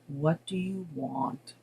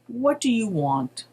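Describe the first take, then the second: First: It is said in a gloomy tone. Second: It is said in a neutral tone.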